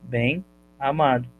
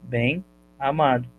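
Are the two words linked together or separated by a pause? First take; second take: separated; separated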